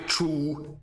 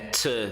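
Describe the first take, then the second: First: The vowel is full with strongly rounded lips. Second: The vowel is reduced with barely moving lips. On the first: The speaker calls it wrong. "não falem to com aquele bicão de pato louco" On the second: The speaker calls it right. "A gente mal mexe a boca para falar t"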